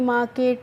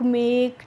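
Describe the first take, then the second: First: The first vowel sounds like 'ah' with a final vowel. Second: The vowel sounds like 'ay' with silent final e. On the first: The speaker calls it wrong. "इस तरीके से नहीं पढ़ना है" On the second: The speaker calls it right. "कैसे पढ़ना है बच्चों"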